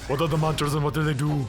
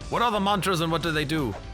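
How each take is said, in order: First: It is said in a put-on Austrian-accented impression voice. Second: It is said in the speaker's ordinary voice.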